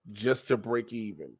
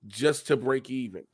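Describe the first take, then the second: No difference in how they are said.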